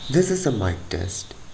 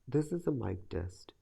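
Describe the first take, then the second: First: Clear voice with audible fan noise behind. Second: Clear voice with no background noise. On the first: "when the fan is turned on and kept at medium speed" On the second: "after doing noise reduction"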